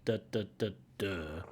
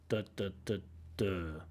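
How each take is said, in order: No difference in how they are said.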